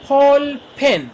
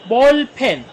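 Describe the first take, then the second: First: "बॉल पेन" opened with a puffed p, slow and high; aspirated first sound. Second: "बॉल पेन" with an unaspirated b, loud and high; original b sound. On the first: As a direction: start "बॉल" as an aspirated "फॉल", drawn out. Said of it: "शुरू में aspirated sound देता है". ("बॉल" की शुरुआत हवा वाले "फ" से) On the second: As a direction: start "बॉल" on a plain voiced b. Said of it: "यहाँ पे अपनी ओरिजिनल साउंड भी". ("बॉल" में सादा "ब", ज़ोर से) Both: Shown as a demonstration.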